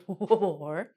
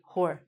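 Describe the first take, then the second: First: The word starts with a pronounced W sound. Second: The word starts with no W sound. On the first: The speaker calls it wrong. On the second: The speaker calls it right.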